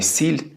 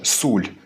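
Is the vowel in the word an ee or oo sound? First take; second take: ee; oo. First: The vowel is an unrounded ee sound. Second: The vowel is a rounded oo sound. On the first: The modern standard pronunciation is used. "а не «сіль»" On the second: An old dialect pronunciation is used. "Чому Паша каже «суль»"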